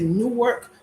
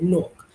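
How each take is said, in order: First: It is said the way outsiders say it. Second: It is said the way Newark locals say it.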